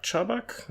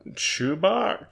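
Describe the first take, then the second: First: Chubak said as CHUB-uck, questioning; softer, higher, tentative CHUB-uck for Chubak; second-guessed pronunciation. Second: Chubak said as CHOO-bahk, questioning; softer, higher, tentative CHOO-bahk for Chubak; unsure pronunciation. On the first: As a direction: try Chubak with a short first vowel. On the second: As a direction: try Chubak with a long "oo" first. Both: Real, not acted. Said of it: "I don't know how to say names".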